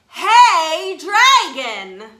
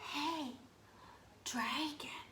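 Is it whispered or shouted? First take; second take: shouted; whispered. First: It is shouted very loudly. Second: It is whispered very softly.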